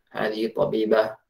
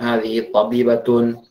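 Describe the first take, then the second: First: The last word stops short without a vowel ending. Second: The last word ends with its full vowel ending. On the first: This is how Arabs say it in everyday conversation. "mereka ya sukun-sukun saja ujung-ujungnya" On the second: This is the careful reading used while learning. "usahakan harokat ini dibaca"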